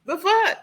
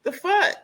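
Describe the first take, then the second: First: The fuck? thrown out high, rising at the end in disbelief; shocked outburst again. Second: Shocked outburst. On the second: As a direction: blurt The fuck? in high disbelief. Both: Real, not acted. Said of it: "I hate to say it like that".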